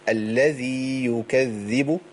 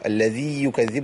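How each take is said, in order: First: The long vowel is held before the next word. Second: The vowel merges straight into the next word. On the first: The speaker calls it right. "الذي دي أمدية ... ما عملاش عملية إضغام" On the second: The speaker calls it wrong. "ما أقولش الذي يكذب. الذي يكذب لا"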